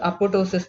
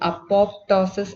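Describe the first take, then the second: First: The second p sound is left out. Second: The second p sound is pronounced. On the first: The speaker calls it right. "ഇത് pronounce ചെയ്യുന്നത് അപ്പോട്ടോസിസ് എന്നാണ്" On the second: The speaker calls it wrong. "ഇതിൻ്റെ spelling അപ്പോപ്ടോസിസ് എന്നാണെങ്കിലും"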